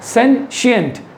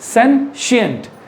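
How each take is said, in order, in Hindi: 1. शब्द के बीच में 'sh' की आवाज़ है। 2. शब्द के बीच में 'sh' की आवाज़ है।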